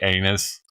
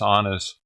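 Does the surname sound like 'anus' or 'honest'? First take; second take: anus; honest. First: The name sounds like the word anus. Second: The name sounds like the word honest. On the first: The speaker is proud of the family name. The speaker calls it right. "he insists on them pronouncing it anus because that's the proper way" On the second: The speaker is avoiding an embarrassing-sounding name. The speaker calls it wrong. "the kids and the mom all want to pronounce it honest"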